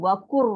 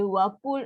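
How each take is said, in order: First: The lam merges into an r sound. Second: The lam is pronounced clearly as l. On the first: The lam is absorbed into the following ra. The speaker calls it right. "so kan hilang bunyi" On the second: The lam is kept separate from the following ra. The speaker calls it wrong. "kan susah. Tak boleh"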